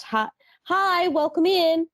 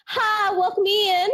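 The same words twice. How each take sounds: First: High, bright retail greeting; chirpy greeting. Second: High Southern drawl on welcome in; Southern greeting. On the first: Shown as a demonstration. Clerk greeting every customer, high cheery voice. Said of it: "It's just". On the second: Retold or imitated. Retail clerk greeting shoppers, high Southern lilt. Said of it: "a little bit of the South, like, just kind of kicks in".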